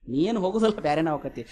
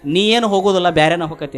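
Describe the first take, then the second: First: Soft, sinking low at the end; hushed acted pronouncement. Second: Forceful, falling in pitch at the end; firm acted pronouncement. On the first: Storyteller echoes the sadhu's prediction to listeners, hushed. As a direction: let the prediction land quietly. Same prediction repeated softly for effect. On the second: Sadhu tells Alexander he won't get home, firmly pronounced. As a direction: deliver the prediction with firm weight.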